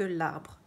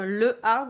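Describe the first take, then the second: First: The article's vowel is dropped before the noun. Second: The article's vowel is kept before the noun. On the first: The speaker calls it right. "On peut dire que l'arbre" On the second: The speaker calls it wrong. "On ne peut pas dire le arbre"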